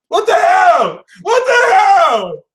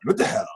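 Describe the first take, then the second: First: Very high, loud, drawn-out mock wail; shrieking what the hell. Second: Said in the usual way. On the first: Reader wailing at the Capricorn card, high shriek. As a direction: wail it like it's the last straw.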